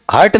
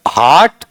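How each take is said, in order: First: हर्ट said with a short uh vowel; wrong short हर्ट; short vowel hurt. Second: हार्ट said with a long open aa; हार्ट, not हर्ट; long vowel haart. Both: Shown as a demonstration. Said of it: "हर्ट नहीं".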